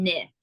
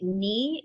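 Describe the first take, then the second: First: "ni" with a short i; short-vowel ni. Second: "ni" with a long ee; long-vowel ni. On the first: Contrasting two Sanskrit syllables, ni said as NIH. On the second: Contrasting two Sanskrit syllables, ni said as NEE. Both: Shown as a demonstration. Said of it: "ni is different than ni".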